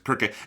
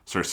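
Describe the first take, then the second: First: The name begins with a K sound. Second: The name begins with an S sound. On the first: This is the Greek and Japanese name. The speaker calls it right. "which is also the Japanese pronunciation they use" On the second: This is the common English name. The speaker calls it wrong. "it's common in English that people call her Circe"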